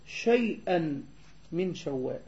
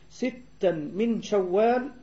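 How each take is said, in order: First: "شيئا" slow, with shin and ya; misread wording. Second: "ستا" slow and set apart, with sin and doubled t; correct wording. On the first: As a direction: draw out "شيئا", clear sh and y glide. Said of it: "بالشين المعجمة والياء آخر الحروف". (نطق "شيئا" ببطء بالشين والياء) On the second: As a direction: draw out "ستا", clear s and double t. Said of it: "بدل ستا". (نطق "ستا" ببطء بالسين والتاء) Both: Shown as a demonstration.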